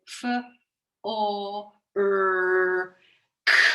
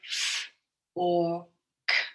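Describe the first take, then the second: First: The o and r are split into two sounds. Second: The o and r are joined into one sound. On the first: The speaker calls it wrong. "we don't say f or er, k" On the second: The speaker calls it right. "We say f or k. Those two come together"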